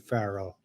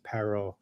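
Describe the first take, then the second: First: The word begins with an F sound. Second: The word begins with a P sound. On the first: The letter is written without a dot. "without the dot, it would be Pharaoh" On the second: The letter is written with a dot. "it's a P... we always pronounce it Paro"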